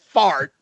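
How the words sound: The r is clearly pronounced after the vowel. "the rest of the country says fart"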